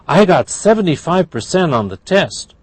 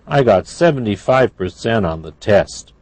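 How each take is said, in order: First: It is said in a happy tone. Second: It is said in a sad tone. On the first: "That's happy" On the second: "That's sad"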